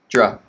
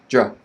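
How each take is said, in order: First: The syllable is short and unstressed. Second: The syllable is short and unstressed.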